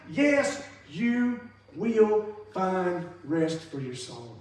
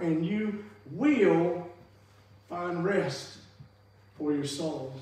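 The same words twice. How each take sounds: First: Slow, emphatic "Yes, you will find rest for your soul". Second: Said in the usual way. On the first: Shown as a demonstration. Preacher insisting to his congregation that Jesus promises rest, emphatic. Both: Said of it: "It was an emphatic".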